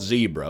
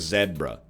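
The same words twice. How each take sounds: First: It is said the non-Canadian way. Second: It is said the Canadian way.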